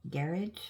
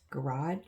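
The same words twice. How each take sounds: First: "garage" as GARE-idge; stress on first syllable. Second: "garage" as guh-RAHZH; stress on second syllable. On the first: Showing the other pronunciation, garage as GARE-idge. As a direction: say "garage" to rhyme with carriage. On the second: Comparing words across countries, garage as guh-RAHZH. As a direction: say "garage" with a long ah at the end. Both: Shown as a demonstration. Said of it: "that's also pronounced".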